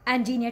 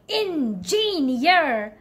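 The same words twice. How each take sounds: First: The syllables flow smoothly with one main stress. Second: Every syllable is stressed with equal weight. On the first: The speaker calls it right. "Try to make it smooth" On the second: The speaker calls it wrong. "I know you try to stress on all the syllable"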